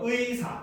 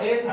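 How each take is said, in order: First: The first vowel is the diphthong ui. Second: The first vowel is an ae sound. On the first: The speaker calls it right. "정확하게 발음하면 의사 이렇게" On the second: The speaker calls it wrong. "애사 이런 거 안 됩니다"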